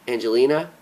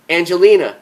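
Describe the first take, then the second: First: Said in the usual way. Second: Stern "Angelina," pushed higher and louder with a firm fall; firmer, louder "Angelina," cutting her off; more sternly. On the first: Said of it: "trying to interrupt her". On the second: Acted. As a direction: clip her name to make her stop: "Angelina,". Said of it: "a little more sternly".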